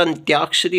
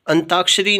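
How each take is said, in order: First: अंत्याक्षरी with y gliding after t; ty cluster. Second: अंताक्षरी with t straight into aa; plain t. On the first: Teacher giving the correct form, अंत्याक्षरी with ty. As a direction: say अंत्याक्षरी as "an-tyaakshari". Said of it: "होता है". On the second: Teacher showing the faulty form, अंताक्षरी without y. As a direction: say अंताक्षरी as "an-taakshari". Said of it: "नहीं होता". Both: Shown as a demonstration.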